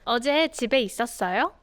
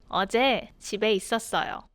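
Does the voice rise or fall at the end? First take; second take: rises; falls. First: The voice rises at the end. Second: The voice falls at the end.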